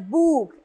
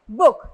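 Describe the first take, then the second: First: The vowel is long, as in 'moon'. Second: The vowel is short, as in 'put'. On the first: The speaker calls it wrong. "not as book" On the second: The speaker calls it right. "We pronounce it as book"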